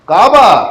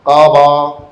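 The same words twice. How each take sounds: First: It is said with a lively melodic tune. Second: It is said flatly, like a robot.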